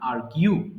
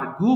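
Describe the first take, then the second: First: The second syllable is said as 'gyoo'. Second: The second syllable is said as 'goo'. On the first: The speaker calls it right. "এটা সঠিক উচ্চারণ আর্গিউ" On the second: The speaker calls it wrong. "আমরা ভুল করে অনেক সময় আর্গু বলি"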